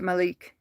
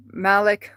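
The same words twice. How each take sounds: First: Malik with the stress at the end, ma-LEEK; alternative pronunciation. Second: Malik with the stress up front, MAL-ik; first pronunciation attempt. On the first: Unsure of the player's name, Malik tried as ma-LEEK. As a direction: say Malik as muh-LEEK, long second vowel. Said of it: "Or is it Malik?". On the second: Reading football news to chat, Malik said as MAL-ik. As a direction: say Malik as MAL-ick, short second vowel. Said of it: "I don't know, Kenneth, how to say the name". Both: Shown as a demonstration.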